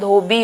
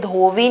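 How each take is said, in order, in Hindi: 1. बीच का व्यंजन ब वाली ध्वनि है। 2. बीच का व्यंजन व वाली ध्वनि है। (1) "धोबी होता है" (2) "धोवी नहीं होता"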